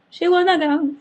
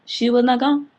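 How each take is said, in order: First: Much higher and louder, squealed out; shrieking. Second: Louder, each word hit; emphatic. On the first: Vlogger shrieking the twist to viewers, high and loud. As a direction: squeal it in disbelief. Repeated punchline, escalating. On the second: Vlogger insisting to viewers the woman stayed, loud. Repeated punchline. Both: Real, not acted.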